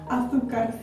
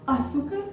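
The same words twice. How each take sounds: First: The z is said like English th. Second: The z is said like an s. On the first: This is how most of Spain says it. "o Z e esse C sejam falados segundo o fonema teta" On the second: This is how southern Spain, the Canaries and Latin America say it. "essas letras são faladas como S"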